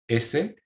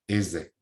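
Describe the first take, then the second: First: The s is a voiceless hiss. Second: The s is a voiced buzz, like z.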